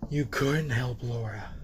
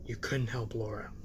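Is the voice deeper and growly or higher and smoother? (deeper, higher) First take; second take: higher; deeper. First: The voice is higher and smoother, with little growl. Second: The voice is lower and deeper, with a growl. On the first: The speaker calls it wrong. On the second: The speaker calls it right.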